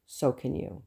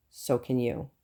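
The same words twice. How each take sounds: The two takes are said the same way.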